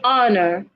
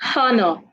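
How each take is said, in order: First: The word starts without an H sound. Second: The word starts with an H sound. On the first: The speaker calls it right. "The H is silent. Simply say honor" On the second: The speaker calls it wrong. "not honor"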